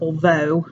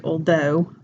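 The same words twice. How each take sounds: First: "although" said with a V for the TH. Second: "although" said with a D for the TH. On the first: Teacher practising the voiced TH, "although" with a V. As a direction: turn "although" into all-vo, Cockney style. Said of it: "pronounced more like a V". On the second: Teacher correcting her example, "although" with a D. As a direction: turn "although" into all-doe. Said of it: "with a D for that one". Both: Shown as a demonstration.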